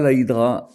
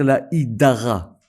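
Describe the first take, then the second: First: The word has two syllables, one vowel reduced. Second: The word has three syllables with full vowels. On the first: The speaker calls it wrong. "et pas la hydra avec un sheva kametz" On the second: The speaker calls it right. "il faut dire la hydara avec deux kametz"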